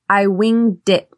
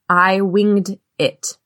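First: The words run smoothly together in one flow. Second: Each word is said separately, sounding choppy. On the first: The speaker calls it right. "Instead, I normally would say" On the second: The speaker calls it wrong. "if I read these words as individuals, separate from each other ... It's very choppy"

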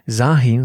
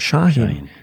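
First: The name begins with a plain s sound. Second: The name begins with a sh sound. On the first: The speaker calls it wrong. "das heißt auch nicht Sahin" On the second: The speaker calls it right. "sondern Shahin"

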